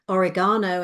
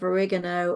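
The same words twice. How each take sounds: First: It is said with a British pronunciation. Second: It is said with an American pronunciation. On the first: The speaker calls it right. "we would be much appreciated in England if you said oregano" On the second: The speaker calls it wrong. "instead of"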